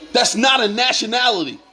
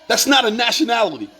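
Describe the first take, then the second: No difference in how they are said.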